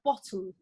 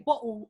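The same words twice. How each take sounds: First: The t sound is pronounced clearly. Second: The t sound is dropped, a glottal stop. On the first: It reflects a careful, polished way of speaking. "instead of" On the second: It reflects a relaxed North London way of speaking. "I'm the girl from North London, so I'm not gonna dot the I's and T's"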